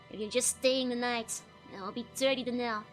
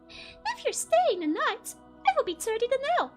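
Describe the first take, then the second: First: It is said in a lower voice. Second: It is said in a high voice.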